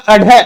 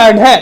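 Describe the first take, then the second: First: "अढे" said as a-ṛhe, with a puff of air; aspirated ढ़. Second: "अढे" said as a-ṛe, with no puff of air; unaspirated ड़. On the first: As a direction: flick the tongue down and breathe out on "अढे". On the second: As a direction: flick the tongue down on "अढे", without aspiration. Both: Shown as a demonstration. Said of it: "इनका उच्चारण करते हैं ना".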